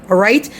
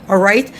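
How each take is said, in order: The two takes are said the same way.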